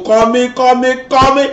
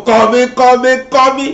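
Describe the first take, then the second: No difference in how they are said.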